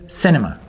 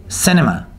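No difference in how they are said.

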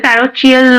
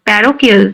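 First: The middle consonant is a ch sound. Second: The middle consonant is a k sound. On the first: The speaker calls it wrong. "প্যারোচিয়াল নয়" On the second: The speaker calls it right. "এটা উচ্চারণ কিন্তু প্যারোকিয়াল হবে"

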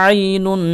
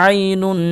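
Both takes have the same delivery.

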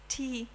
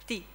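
First: The t is released with a puff of air. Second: The t is released without a puff of air. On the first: The speaker calls it wrong. "no, this was not a Greek t. This was an English, a German, whatever t" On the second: The speaker calls it right. "the Greek sound is t, t, tragodia, without the aspiration"

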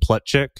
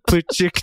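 First: The name has an American English pronunciation. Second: The name has its original foreign pronunciation. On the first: This is how people in America said the name. "they probably called him Plutchik" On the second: This is how the family originally said the name. "Plutchik is probably how his ancestors pronounced the name"

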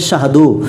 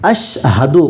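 First: The word starts directly with a 'sh' sound. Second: The word starts with an 'a' vowel sound. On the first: The speaker calls it wrong. "অনেকজন বলে শাহাদু" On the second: The speaker calls it right. "কিন্তু আশহাদু"

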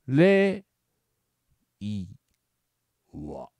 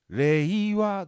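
First: The first syllable is high in pitch. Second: The first syllable is not high in pitch. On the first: "高い。さ最初の語語彙を上げる。" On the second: "僕は発音的にこれ、令和だと思うのね"

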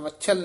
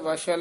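First: The middle consonant is said forcefully and hard. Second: The middle consonant is said softly and lightly. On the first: The speaker calls it wrong. "ਵਛਲ ਨਹੀਂ ਕਹਿਣਾ" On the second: The speaker calls it right. "ਇਹਨੂੰ ਪੋਲਾ ਹੀ ਉਚਾਰਨ ਕਰਨਾ"

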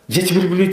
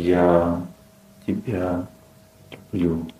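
First: The phrase is rattled off quickly, over and over. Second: The phrase is said slowly and calmly. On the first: The speaker calls it wrong. "мужчина повторяет" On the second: The speaker calls it right. "ты можешь как-то помедленнее сказать? Он такой"

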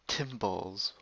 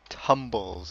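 First: The name begins with a 'tim' sound. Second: The name begins with a 'tum' sound. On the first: The speaker calls it wrong. "People say it like Tmblz ... assume that there's an I" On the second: The speaker calls it right. "that's how you say it ... but it's Tum"

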